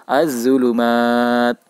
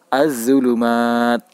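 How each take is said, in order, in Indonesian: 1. L menyatu dengan bunyi Z yang ganda. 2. L menyatu dengan bunyi Z yang ganda.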